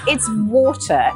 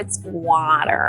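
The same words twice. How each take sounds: First: It is said in her own British accent. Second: It is said in her husband's American accent.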